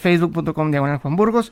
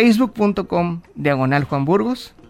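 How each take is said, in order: First: It is said fast. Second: It is said slowly.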